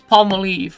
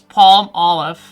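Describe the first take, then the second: First: The brand name is said in Dutch style. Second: It ends like the English word olive. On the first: "how I would say this is Palmolive" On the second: "that's how you pronounce it in in like English"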